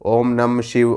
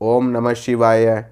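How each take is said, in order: First: The final sounds are dropped, shortening the words. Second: Every syllable is fully pronounced, including the endings. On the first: The speaker calls it wrong. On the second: The speaker calls it right.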